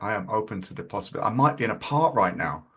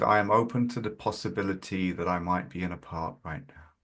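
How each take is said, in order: First: It is said in a judgmental tone. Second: It is said in a gentle tone.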